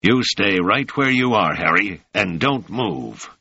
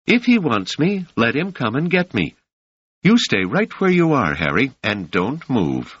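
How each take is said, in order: First: Mocking echo of her words, grinning; grinning mockery. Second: Raised pitch, firm and defiant; a young woman standing her ground; high voiced Doris. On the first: Marin mocking Doris's order to Harry, grinning. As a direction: toss her own line back at her with a smirk. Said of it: "said Marin, grinning broadly". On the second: Doris commanding Harry to stay put, high and firm. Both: A narrator's reading.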